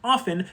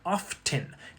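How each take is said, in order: First: The t sound is left silent. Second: The t sound is clearly pronounced. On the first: This is the older original form. "it was originally pronounced often" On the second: This form arose from the spelling. "some people pronounce it as often, and that's through spelling pronunciation"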